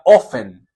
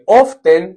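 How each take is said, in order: First: The T sound is left silent in the word. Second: The T sound is pronounced in the word. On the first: "se pronuncia often. Se pronuncia sin la T" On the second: "Se escribe often"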